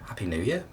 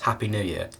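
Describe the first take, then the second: First: The voice rises at the end, like a question. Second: The voice falls at the end, like a statement.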